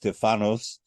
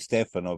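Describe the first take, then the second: First: The name ends with an s sound. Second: The name ends in a vowel, without s. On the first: It is the Greek form of the name. The speaker calls it right. "but it's Stefanos" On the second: It is the Italian form of the name. The speaker calls it wrong. "I'm used to speaking in Italian, so I say Stefano"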